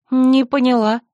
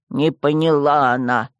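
First: Higher, louder, stress on «Не»; sharp offended «не поняла»; baffled. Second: Low, slow mimic «Не поняла она»; sneering echo in a deep voice; mocking skull. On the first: Acted. (возмущённое недоумение) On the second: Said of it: "Череп мрачно клацнул". (насмешливо, низким голосом)

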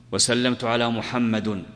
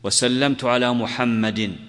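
First: Slow, محمد left without a case ending, plain muhammad; mock wrong ending. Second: Slow, محمد ending clearly in -in, muhammadin; correct case ending. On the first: Teacher imitates a student who ignores the case endings. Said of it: "خطأ يا أخي الكريم". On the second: Shown as a demonstration. Teacher shows students the correct genitive ending. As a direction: say وسلمت على محمد slowly with the -in ending. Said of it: "وأحيانًا تقول".

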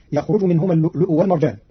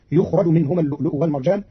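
First: يخرج as yakhruju, fatha on the ya; active reading. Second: يخرج as yukhraju, damma on ya, fatha on ra; Qalun passive reading. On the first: Teacher recites the common reading before Qalun's, yakhruju. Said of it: "قرأ قالون كلمة يخرج". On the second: Teacher shows Qalun's reading, yukhraju in the passive. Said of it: "بضم الياء وفتح الراء". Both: Shown as a demonstration.

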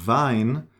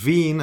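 First: Wein said "vine"; eye vowel. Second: Wien said "veen"; long ee. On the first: Teacher contrasts it with Wien, eye sound. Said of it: "Wien as opposed to Wein". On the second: Teacher lets learners hear the difference, long ee. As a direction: stretch the ee in Wien. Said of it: "as opposed to Wein". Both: Shown as a demonstration.

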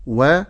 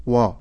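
First: "و" with a thin, light vowel; light waw. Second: "وا" with a dark, thickened vowel; heavy waw. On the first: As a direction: say "و" light, without rounding it. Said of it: "أقول و ولا أقول وا". (واو مرققة "و") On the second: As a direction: make "وا" heavy and rounded. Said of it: "ولا أقول وا". (واو مفخمة "وا") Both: Shown as a demonstration.

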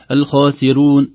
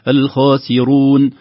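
First: "الخاسرون" with a thin, light ra; wrong pronunciation. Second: "الخاسرون" chanted slowly with a heavy ra; weight the ra in "الخاسرون"; correct pronunciation. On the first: Teacher demonstrates the thin-ra mistake, chanted. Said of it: "تخرج الراء رقيقة". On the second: Teacher models the correct word, slow chant. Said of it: "لكن الصحيح أنها تكون". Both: Shown as a demonstration.

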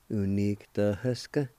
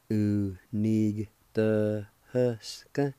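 First: Said in the usual way. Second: "Unigtahusca" very slow, every syllable stretched; slow demo. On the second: Shown as a demonstration. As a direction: drag out "Unigtahusca" for the learner. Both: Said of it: "like this".

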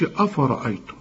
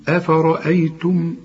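First: أفرأيتم with a heavy, dark ra and dark hamzas; wrong afara'aytum. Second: أفرأيتم with light hamzas; correct form. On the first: Teacher showing the wrong pronunciation, heavy dark ra. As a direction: say أفرأيتم with the vowels thickened. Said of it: "لكن ما تقولش أفرأيتم". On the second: Teacher modeling for the student, light clean hamzas. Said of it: "قل لي". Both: Shown as a demonstration.

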